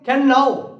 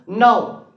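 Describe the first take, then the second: First: The k sound at the start is pronounced. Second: The k sound at the start is silent. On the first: It is read the way it is spelled. "the words is can now" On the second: It is said the way people actually speak. "but we are speaking now"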